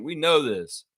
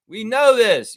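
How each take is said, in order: First: Said in the usual way. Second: Know punched high and loud; shouted. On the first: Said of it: "repeated with force". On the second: Real, not acted. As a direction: yell We know this. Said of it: "repeated, shouted".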